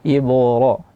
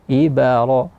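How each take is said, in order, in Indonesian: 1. Pantulan b itu tebal dan berat. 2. Pantulan b itu ditambah vokal setelahnya. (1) "sering terjadi kesalahan di qalqalah ba, ditebalkan" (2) "qalqalah ba-nya dibunyikan harakat atau mirip seperti harakat, itu juga salah"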